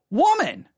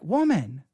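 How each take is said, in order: First: It is said in a frustrated tone. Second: It is said in a compassionate tone.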